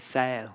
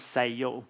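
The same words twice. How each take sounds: First: The word is said as one syllable. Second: The word is stretched into two syllables. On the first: "in kind of P R English, you would say sail" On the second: "the way we might say it with our accent is two syllables"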